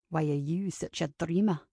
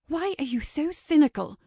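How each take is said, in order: First: Low, quiet man's retort; low male retort. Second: Higher-pitched, mildly hoarse demand; hushed demand. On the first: Kincaid mirrors Ava's question back, low quiet retort. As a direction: throw it back low and understated. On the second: Ava challenging Kincaid among wedding guests, high hushed demand. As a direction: demand it, high and held back from others. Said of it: "she demanded in a hoarse whisper". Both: A narrator's reading.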